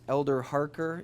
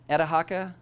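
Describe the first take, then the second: First: It is said in plain, careful standard English. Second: It is said in a clipped local street accent. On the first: "which is Elder Harker in English" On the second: "They they asked me the question"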